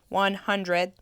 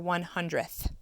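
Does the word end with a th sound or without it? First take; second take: without; with. First: The word ends without a th sound. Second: The word ends with a th sound. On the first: The speaker calls it wrong. "We don't say one hundred" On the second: The speaker calls it right. "We say one tenth or one hundredth"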